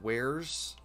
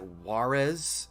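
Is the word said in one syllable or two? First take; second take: one; two. First: The word is said in one syllable, like wares. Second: The word is said in two syllables, like Juarez. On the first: This is the usual way of saying it. "instead of Wares" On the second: This was how the speaker said it in the past. "I used to pronounce it Juarez"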